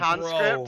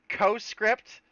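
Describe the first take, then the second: First: The first syllable has an n sound. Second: The first syllable has no n sound. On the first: The speaker calls it wrong. "I mispronounce his name every single time and call him" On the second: The speaker calls it right. "I got you, buddy"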